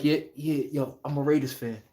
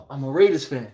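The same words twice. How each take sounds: First: Hushed, lower and softer confession; whisper. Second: Hushed "I'm a Raiders fan" breaking into a laugh; half-whispered, lower, laughing through it. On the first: Fan admitting loyalty at a losing game, hushed whisper. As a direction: keep it down so nobody nearby hears. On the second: Fan repeating the admission, hushed and laughing. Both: Retold or imitated. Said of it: "you gotta whisper that shit like".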